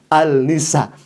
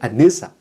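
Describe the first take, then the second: First: The L sound is kept before 'nisa'. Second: The L is assimilated into a doubled N. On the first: It is read as it is written. The speaker calls it wrong. "Masa ulama seperti itu bacanya ... al-nisa" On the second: It is read as properly recited. The speaker calls it right. "Harusnya kan dibaca ... an-nisa"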